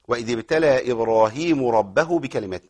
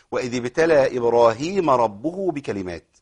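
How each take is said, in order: First: وإذ ابتلى إبراهيمُ ربَّه with subject and object swapped; wrong vowelling. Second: وإذ ابتلى إبراهيمَ ربُّه with the right case endings; correct vowelling. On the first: Teacher showing students the common wrong reading. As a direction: read إبراهيم and ربه with the vowels switched. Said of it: "أعوذ بال-، نعوذ بالله أن نقول هذا". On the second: Teacher giving the correct reading after the mistake. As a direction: read إبراهيمَ as object and ربُّه as subject. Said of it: "تمام؟". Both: Shown as a demonstration.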